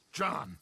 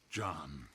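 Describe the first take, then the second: First: Said in the usual way. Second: Lower, softer second call; quiet pleading repeat of John. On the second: Acted. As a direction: let the name drop softly. Leader's plea to John.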